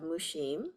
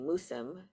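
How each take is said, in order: First: The middle consonant has an audible h sound. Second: The middle consonant is a plain s sound. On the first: The speaker calls it right. "it is pronounced with an aspirated H" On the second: The speaker calls it wrong. "then everyone would call me Musum"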